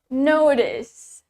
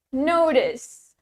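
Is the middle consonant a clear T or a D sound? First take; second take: D sound; D sound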